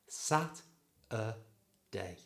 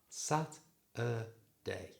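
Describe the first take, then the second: No difference in how they are said.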